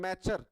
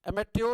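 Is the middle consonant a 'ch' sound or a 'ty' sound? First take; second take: ch; ty. First: The middle consonant is a 'ch' sound. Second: The middle consonant is a 'ty' sound. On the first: The speaker calls it right. "चा का उच्चारण लेते हैं" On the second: The speaker calls it wrong. "एमेट्योर नहीं पढ़ते हैं"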